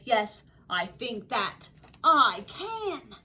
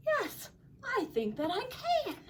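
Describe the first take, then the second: First: Slow, louder storybook reply; deliberate, emphatic agreement; resolute yes. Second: High, light storybook reply; high-voiced, modest agreement; tentative yes. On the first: Acted. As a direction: draw it out firmly at normal pitch. Kevin agrees, second take. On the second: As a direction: say it pitched well up, without force. Kevin agrees, first take.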